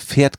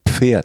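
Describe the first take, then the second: First: The word starts with a plain f sound. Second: The word starts with an audible p before f. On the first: The speaker calls it wrong. "Ich habe immer Pferd gesagt" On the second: The speaker calls it right. "das heißt doch Pferd mit P"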